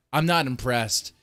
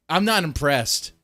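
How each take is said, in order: First: Said in the usual way. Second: "not" leaned on, slow and firm; emphatic dismissal. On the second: Real, not acted. Streamer dismissing Russian tanks to chat, emphatic slow dismissal. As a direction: drag out "I'm not impressed" with weight on "not".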